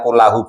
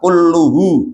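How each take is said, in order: First: The vowel after the double l is a. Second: The vowel after the double l is u. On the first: The word emphasizes the preceding noun. "Bin nasbi dengan dibaca nasab" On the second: The word is the subject of the sentence. "atau dibaca rafa"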